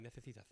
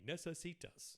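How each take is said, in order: First: "Necesitas" with th in place of s; soft, lisped "nethethitath" for "Necesitas"; Spanish lisp. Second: "Necesitas" with clear s sounds, no lisp; unlisped "Necesitas", every c an s; American-style pronunciation. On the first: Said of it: "a Spanish person will be like". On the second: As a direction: say "Necesitas" like an English-speaking American. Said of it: "an American English guy saying". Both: Retold or imitated.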